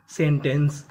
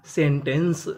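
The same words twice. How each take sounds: The two takes are said the same way.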